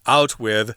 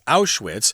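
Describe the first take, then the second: First: The name ends with a soft 'th' sound. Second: The name ends with a sharp 'ts' sound. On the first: The speaker calls it wrong. "this is how this person mispronounces the name of this place" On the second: The speaker calls it right. "the correct pronunciation is"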